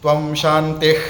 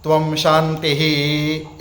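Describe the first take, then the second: First: The word ends without any breathy h sound. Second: The word ends with an audible breathy h sound. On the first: The speaker calls it wrong. "ऐसा नहीं बोलना है" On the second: The speaker calls it right. "ऐसा बोलना है"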